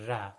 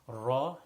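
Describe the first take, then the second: First: The R is said light with a thin mouth. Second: The R is said heavy with a full mouth. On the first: The speaker calls it wrong. "not ra" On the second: The speaker calls it right. "is thick, is full mouth"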